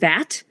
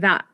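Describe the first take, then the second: First: The final T is clearly released. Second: The final T is a glottal stop. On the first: "when you say words like that or it" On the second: "a lot of times you say that, it, which is a very Southern California feature"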